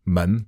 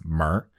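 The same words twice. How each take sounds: First: Said in the usual way. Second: 门儿 with an R on the end; 门儿 said as one r-coloured syllable, northern style. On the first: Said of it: "with the R on the end". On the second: Shown as a demonstration. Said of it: "with the R on the end, like a northern accent".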